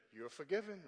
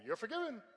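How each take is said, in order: First: Flat, cold forgiveness; icy church mother granting forgiveness; real cold. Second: A higher, cold repeat of the pardon. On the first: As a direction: say it without any warmth. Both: Retold or imitated. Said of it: "real cold".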